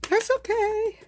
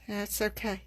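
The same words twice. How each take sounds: First: High, louder sing-song "That's okay"; singsong reassurance. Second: Said in the usual way. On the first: Real, not acted. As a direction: brush off the mistake in a bright high lilt.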